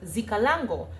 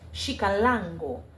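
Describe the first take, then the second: First: The word begins with a z sound. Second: The word begins with an sh sound. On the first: The speaker calls it wrong. "I would pronounce it as Zikalango" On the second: The speaker calls it right. "It would pr- be pronounced as Shikalango"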